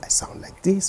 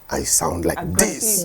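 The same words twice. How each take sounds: First: It is said calmly and quietly. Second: It is said loudly and aggressively.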